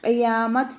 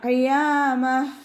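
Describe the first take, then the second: First: The word ends with a t sound. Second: The word ends with an h sound. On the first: The speaker calls it wrong. "ഖിയാമത്ത് എന്ന് പറഞ്ഞിട്ട് വഖഫ് ചെയ്യൂല" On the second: The speaker calls it right. "അതുപോലെ വഖഫ് ചെയ്യാം"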